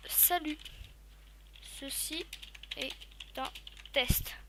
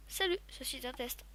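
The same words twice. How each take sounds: First: "Ceci est un test" spoken slowly, word by word, with pauses; typing dictation. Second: Said in the usual way. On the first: Shown as a demonstration. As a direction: dictate it word by word as you type. (dicté lentement, mot par mot)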